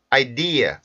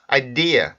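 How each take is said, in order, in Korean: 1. 강세가 두 번째 음절에 있어요. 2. 강세가 두 번째 음절에 있어요.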